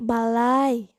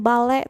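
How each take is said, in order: First: The word ends in an ai diphthong. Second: The word ends in a plain e vowel. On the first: The speaker calls it right. "tapi balai" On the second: The speaker calls it wrong. "bukannya balai"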